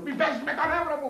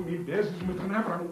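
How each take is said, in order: First: Higher pitched, at the end of his rope; exasperated plea. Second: Said in the usual way. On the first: Acted. Priest begging Maria not to test his nerves, higher exasperated plea. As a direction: let it crack up high in exasperation.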